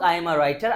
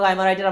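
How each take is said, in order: First: It is spoken at a normal, unhurried pace. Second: It is spoken as fast as possible.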